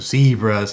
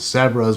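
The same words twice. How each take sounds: First: The word is said in a non-British way. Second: The word is said in the British way.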